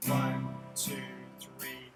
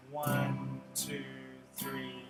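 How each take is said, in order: Both takes have the same delivery.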